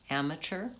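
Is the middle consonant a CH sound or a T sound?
CH. The middle consonant is a CH sound. "we say amateur with a C H sound"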